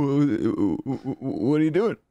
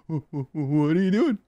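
First: High, stuttered what; stammering high voice. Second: High, quick stammered question; shorter stammering bit. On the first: Repeating the stammer bit. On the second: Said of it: "You gotta shrink it down". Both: Pretend.

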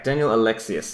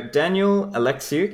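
First: Surname said as "Alexius", ending in "-us"; corrected pronunciation. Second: Surname said as "Alexiuk", ending in "-uk"; unsure try at "Alexiuk", ending on "k"; mistaken pronunciation. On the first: Host repeats guest's surname after being corrected, "Alexius" ending in s. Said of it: "Close, it's Alexius". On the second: Host tries guest's surname on air, mistaken "Alexiuk" with a k ending. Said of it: "is that pronounced Alexiuk?". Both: Real, not acted.

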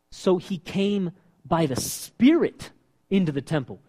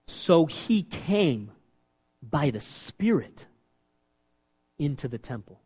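First: Said in the usual way. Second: Slow scripture reading. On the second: Real, not acted.

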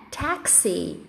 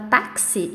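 First: "taxi" with an E sound in the A; English pronunciation. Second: Said in the usual way. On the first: Shown as a demonstration. Teacher models correct English taxi for students, English pronunciation. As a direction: say "taxi" the English way, TEK-see, softly. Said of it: "A gente vai fazer esse som de E no A". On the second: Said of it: "a pronúncia correta da palavra táxi em inglês é".

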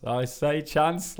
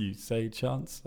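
First: "chance" said with a short flat a, as in "chanse"; northern chance. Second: "chance" said with a long broad ah, as in "chahnce"; posh chance. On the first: Answering the posh co-host, "chance" said with a short flat a. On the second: Teasing his co-host, "chance" said with a broad ah. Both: Shown as a demonstration. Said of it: "You say chance, I say chance".

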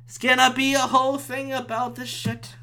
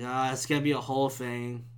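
First: High, strained whine; whiny exasperation. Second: Low, soft groaning complaint; resigned dread. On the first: Real, not acted. Podcaster dreading a police call, high exasperated whine. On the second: Retold or imitated. Podcaster dreading a police call, low resigned voice. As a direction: say it low and deflated. Dreading the cops being called.

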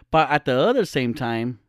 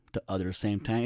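First: Said in the usual way. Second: "the other same time" repeated much softer and lower, testing the phrase; softly questioning the wording under the breath; quiet doubtful repeat. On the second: Shown as a demonstration. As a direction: mutter it back to yourself, unsure. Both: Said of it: "is that a thing?".

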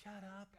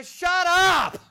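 First: Soft, small shut up; timid shut up. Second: Much higher, full-force yell of shut up; shouted shut up. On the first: Preacher showing the wrong, timid way to rebuke, soft. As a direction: say shut up barely above a breath. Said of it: "you don't want to say". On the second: Preacher showing how to rebuke the curser, loud shout. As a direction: bellow shut up with all your authority. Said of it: "You want to say". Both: Shown as a demonstration.

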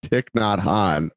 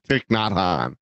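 First: Thich Nhat Hanh, stress on Thich, said slow; first stress. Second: A quieter try at Thich Nhat Hanh; second take. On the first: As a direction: lean on Thich. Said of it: "Which one is it?". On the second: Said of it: "Thich, not Hanh". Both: Shown as a demonstration.

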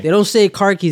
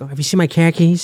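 First: Said in the usual way. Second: Mock Boston accent on car keys; hammed-up Boston car keys. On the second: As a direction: drop the r, say it like a Bostonian. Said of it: "it's all just a Boston accent".

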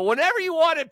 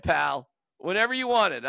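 First: High, quick and bright offer; excited. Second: Said in the usual way. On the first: Real, not acted. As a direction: burst out with the offer. Offering the gift to Johnny.

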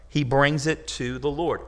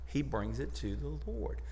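First: "he brings it to the Lord" said firmly, "brings" leaned on; emphatic. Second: "he brings it to the Lord" said much softer, dropping away; quiet. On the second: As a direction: let "he brings it to the Lord" fall to a near hush. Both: Shown as a demonstration.

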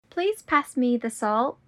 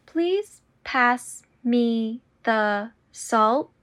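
First: Said in the usual way. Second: Slow and deliberate. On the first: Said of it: "repetition drill, normal take". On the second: Shown as a demonstration. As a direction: draw out every word. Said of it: "repetition drill, slowed take".

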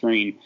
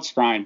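First: Skrine said like "screen"; "Skrine" rhyming with green; correct pronunciation. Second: Skrine said to rhyme with shine; "Skrine" with an eye vowel; pronounced as spelled. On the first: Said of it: "but it's pronounced Skrine". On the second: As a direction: say Skrine with a long i, as in line. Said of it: "It's spelled Skrine". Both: Shown as a demonstration.

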